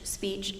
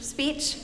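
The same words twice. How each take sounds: First: It is said quietly. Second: It is said at full loudness.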